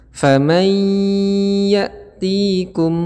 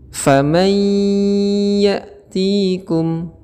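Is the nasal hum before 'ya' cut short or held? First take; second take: held; held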